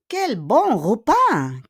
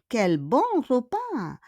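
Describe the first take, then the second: First: Slow and louder exclamation, leaning on repas; slow emphatic model. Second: Said in the usual way. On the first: Shown as a demonstration. Teacher models the exclamation for the class, slow and louder. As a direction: savour each word slowly. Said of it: "Quel bon repas! (model, then repeat)". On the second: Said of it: "repeat softer".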